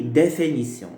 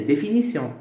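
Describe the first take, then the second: First: "définition" with É in place of the first I; regional pronunciation. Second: Said in the usual way. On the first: Shown as a demonstration. Teacher showing how some regions say it, regional É for I. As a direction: say "définition" as dé-fé-ni-sion. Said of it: "dans certaines régions". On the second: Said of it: "la prononciation correcte".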